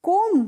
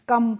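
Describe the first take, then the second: First: The vowel sounds like 'oh'. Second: The vowel sounds like 'uh'. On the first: The speaker calls it wrong. "कोम नहीं" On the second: The speaker calls it right. "कम पढ़ेंगे"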